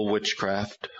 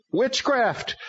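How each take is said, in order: First: Said in the usual way. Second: High, strange demon voice. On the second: A narrator's reading. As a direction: announce the name like a demon. Demon names itself.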